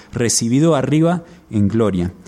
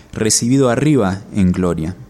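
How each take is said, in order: The two takes are said the same way.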